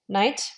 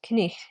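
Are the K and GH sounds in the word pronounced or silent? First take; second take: silent; pronounced. First: The K and GH sounds are silent. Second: The K and GH sounds are pronounced.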